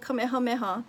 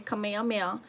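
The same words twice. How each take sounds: First: It is said with a native Hawaiian pronunciation. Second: It is said with an outsider's mispronunciation. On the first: The speaker calls it right. "instead of saying Kamehameha" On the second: The speaker calls it wrong. "they're gonna say Kamehameha"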